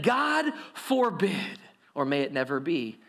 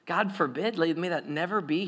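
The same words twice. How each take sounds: First: Slow, drawn-out God forbid; horrified crowd. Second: Said in the usual way. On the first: Acted. People recoiling at the verdict, mock horror. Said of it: "they said". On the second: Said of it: "Wait, hold on".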